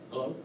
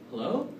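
First: The pitch stays level at the end. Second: The pitch rises at the end. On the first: "Then there's the neutral" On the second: "rapport-seeking tonality, where the tonality will go up"

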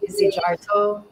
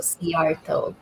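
First: The Z and J are both clearly pronounced. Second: The Z is silent and J sounds like Y. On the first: This is the usual American way of saying it. "They pronounce the Z and the J" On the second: This is the Hungarian way of saying it. "the Hungarian version is a silent Z and the J is pronounced as a Y"

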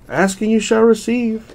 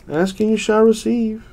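Both takes have the same delivery.

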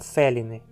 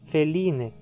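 First: The stress is on the first syllable. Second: The stress is on the second syllable. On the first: The speaker calls it wrong. "e não feline" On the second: The speaker calls it right. "o i é longo. E por isso, a palavra é paroxítona"

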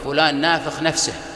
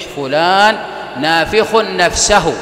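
First: It is said in colloquial dialect pronunciation. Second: It is said in standard classical pronunciation. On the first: The speaker calls it wrong. "سأذكرها باللهجة العامية" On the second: The speaker calls it right. "لكن النطق الصحيح"

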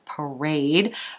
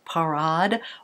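First: It is said with an American pronunciation. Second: It is said with a French pronunciation.

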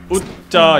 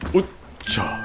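First: The word is said with little breath. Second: The word is said with more breath mixed in. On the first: The speaker calls it wrong. "이렇게 웃자 이게 아니라" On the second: The speaker calls it right. "좀 더 차에서 숨을 더 섞어야 돼요"

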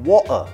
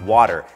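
First: The middle t is cut out entirely. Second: The middle t sounds like a soft d. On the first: "ก็คือตัดทิ้งนะครับ" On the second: "เป็นดอเด็กครับ"

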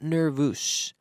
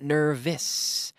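First: The second vowel is a full vowel. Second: The second vowel is reduced, like a short e. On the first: The speaker calls it wrong. "it's not nervous" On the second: The speaker calls it right. "but nervous. It's almost like an E"

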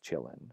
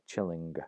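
First: The word ends in a plain n sound. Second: The word ends in ng followed by g. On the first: This is the later pronunciation. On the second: This is the older pronunciation.

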